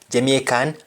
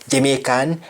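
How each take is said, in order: Both takes have the same delivery.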